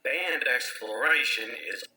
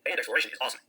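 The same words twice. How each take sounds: First: Slowed down. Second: Sped up. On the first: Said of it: "Or make yourself slower". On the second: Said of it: "This will sound like you, just faster". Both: Shown as a demonstration.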